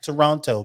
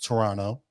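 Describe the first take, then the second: First: Every syllable and the middle t are clearly pronounced. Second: The word is shortened, with the middle t dropped. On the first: The speaker calls it wrong. "It's not Toronto" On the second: The speaker calls it right. "It's Toronto, right?"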